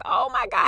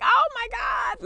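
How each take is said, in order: First: Said in the usual way. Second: Very high, slow joyful cry; overwhelmed shout. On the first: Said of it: "And I was like". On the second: Retold or imitated. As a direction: cry out with overflowing joy. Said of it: "And I was just like".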